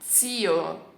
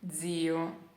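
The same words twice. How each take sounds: First: The z at the start is strong and forceful. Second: The z at the start is soft and light. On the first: This is how people in Tuscany say it. "Eles pronunciam zio" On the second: This is the speaker's own usual pronunciation. "eu sempre pronunciei zio, zio, ok? Leggero"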